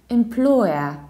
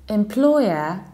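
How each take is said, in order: The two takes are said the same way.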